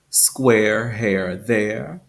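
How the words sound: Each word ends with a pronounced R sound. "in General American English"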